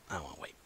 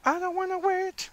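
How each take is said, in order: First: Very soft and low, trailing away; low, quiet grumble. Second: High sung line, held notes; sung, break into song up high; playful singing. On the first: Real, not acted. Fan dreading a wait for the episode, low and quiet. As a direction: say it small and low, almost to yourself. Spoken line before singing it. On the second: Pretend. Sung, fan dreading a wait bursts into high song.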